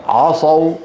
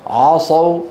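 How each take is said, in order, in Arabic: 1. العين ثقيلة. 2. العين ثقيلة.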